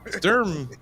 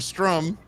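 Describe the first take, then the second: First: The R comes after the vowel. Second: The R comes before the vowel. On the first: The speaker calls it right. "it's like Sturm" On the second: The speaker calls it wrong. "I was saying it wrong"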